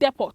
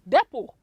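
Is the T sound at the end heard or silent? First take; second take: heard; silent. First: The final T sound is pronounced. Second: The final T sound is left out. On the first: The speaker calls it wrong. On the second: The speaker calls it right.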